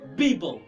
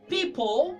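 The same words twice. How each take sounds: First: The word begins with a b sound. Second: The word begins with a p sound.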